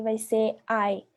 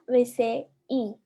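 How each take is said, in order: First: "I" pronounced like English "eye". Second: "I" pronounced as a pure "ee". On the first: Teacher giving students the open-syllable rule, "I" said as "ai". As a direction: give "I" the diphthong sound "ai". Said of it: "Quando o i tá terminando a sílaba". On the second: Teacher contrasting the closed-syllable rule, "I" said as "ee". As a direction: hold "I" as a slow "ee" vowel. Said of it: "E quando não tá". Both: Shown as a demonstration.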